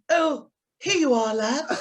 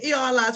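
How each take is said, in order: First: It is said in posh RP English. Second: It is said in a Scouse accent.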